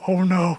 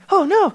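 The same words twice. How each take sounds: First: It is said in the dog's voice. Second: It is said in the bunny rabbit's voice.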